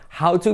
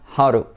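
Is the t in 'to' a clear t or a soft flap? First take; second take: clear t; soft flap. First: The t is a clear, full t sound. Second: The t is a soft r-like flap.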